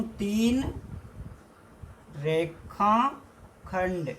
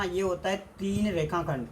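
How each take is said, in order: First: तीन रेखाखंड drawn out very slowly with a pause between; slow teacher emphasis. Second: Said in the usual way. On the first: Shown as a demonstration. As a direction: stretch रेखाखंड long so students note it down. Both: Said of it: "क्या होता है दोस्तों".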